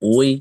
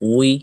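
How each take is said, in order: No difference in how they are said.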